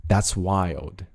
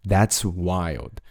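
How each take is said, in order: Both takes have the same delivery.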